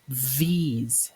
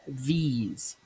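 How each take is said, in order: No difference in how they are said.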